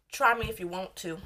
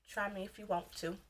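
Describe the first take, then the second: First: Said in the usual way. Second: Much softer repeat of the dare; quiet warning. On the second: Real, not acted. Warning commenters who write stupid stuff, very quietly. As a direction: say the dare under your breath.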